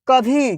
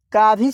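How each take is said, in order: First: कभी as short क then long भी; correct pronunciation. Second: का भी as "kaa-bhee", the misreading; incorrect pronunciation. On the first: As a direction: say कभी with a short first vowel, "ka-bhee". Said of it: "क्या हो गया?". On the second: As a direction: say का भी with a long aa in का. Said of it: "गलत हो जाएगा". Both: Shown as a demonstration.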